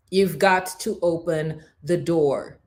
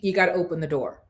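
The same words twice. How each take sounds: First: "You've got to open the door" slowly, word by word; weighty, measured stress on "You've got to open the door"; slow emphatic repeat. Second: Said in the usual way. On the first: Real, not acted. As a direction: drive home "You've got to open the door" with deliberate spacing.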